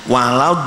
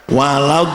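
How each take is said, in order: No difference in how they are said.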